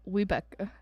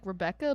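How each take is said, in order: First: "Webecca" starting with a W sound; W replacing R. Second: "Rebecca" said with an R at the start; usual R pronunciation. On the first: Co-host explaining an odd name, "Webecca" with an initial W. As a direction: say "Webecca", opening on "wee" instead of an R. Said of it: "It's like Rebecca, but Webecca". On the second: Co-host contrasting a name, "Rebecca" with an initial R. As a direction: say "Rebecca" with its ordinary opening R. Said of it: "but Webecca". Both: Shown as a demonstration.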